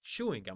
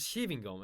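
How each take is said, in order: First: It is pronounced with English sounds. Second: It is pronounced with German sounds. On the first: The speaker calls it right. "that's pronounced chewing gum" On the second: The speaker calls it wrong. "I pronounced it the way I would pronounce the German word"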